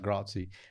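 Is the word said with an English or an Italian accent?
English. It is said with an anglicized, non-native pronunciation. The speaker calls it wrong. "She's like"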